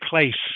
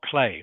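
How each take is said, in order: First: The word ends with a clear S sound. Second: The word ends on the vowel, no S. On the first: The speaker calls it right. "you must say place" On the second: The speaker calls it wrong. "not play"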